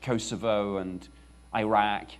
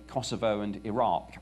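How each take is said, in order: First: It is said in a non-British pronunciation. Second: It is said in a British pronunciation.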